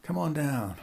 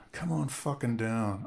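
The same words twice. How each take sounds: First: Light, sing-song invite; breezy lure; mock welcome. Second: Slow, darkening come-on; menacing invite. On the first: [name] repeating his fake invite, breezy. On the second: Pretend. [name] turning the fake invite into a slow threat. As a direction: drag it out with a threat underneath. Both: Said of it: "I'll say".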